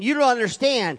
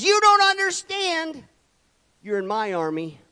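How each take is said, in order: First: A touch louder and higher, firm correction; firm rebuke that "don't" lands on; God's voice. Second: God's voice. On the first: God telling the churchgoer "You don't understand", firm and louder. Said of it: "God is saying". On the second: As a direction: stretch it out like a divine verdict. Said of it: "God says". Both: Retold or imitated.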